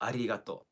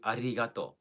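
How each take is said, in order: First: The r is rolled, as in Japanese. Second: The r is rolled, as in Japanese.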